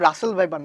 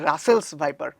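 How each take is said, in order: First: The first word ends without an s sound. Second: The first word ends with an s sound. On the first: The speaker calls it wrong. "এটা কিন্তু রাসেল viper নয়" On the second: The speaker calls it right. "এটা হচ্ছে রাসেলস viper"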